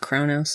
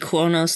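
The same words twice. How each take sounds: First: The name is said with a plain English pronunciation. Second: The name is said with a Klingon-style pronunciation. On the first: The speaker calls it wrong. "not Kronos" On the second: The speaker calls it right. "Just like it should be Kronos"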